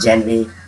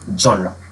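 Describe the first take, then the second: First: It starts with 'jen' and ends in 'ray'. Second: It starts with 'zhon' and ends in 'ruh'. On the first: The speaker calls it wrong. "अगर आपने इसको pronounce किया है जेनरे" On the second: The speaker calls it right. "इसकी जो correct pronunciation है"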